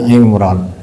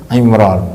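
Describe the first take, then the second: No difference in how they are said.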